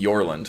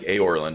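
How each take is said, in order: First: The name starts with a 'y' sound before the vowel. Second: The name starts with an open vowel, no 'y'. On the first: The speaker calls it wrong. "I always end up saying Yorland for some reason, and that's incorrect for sure" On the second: The speaker calls it right. "It's probably more like Aorland, right?"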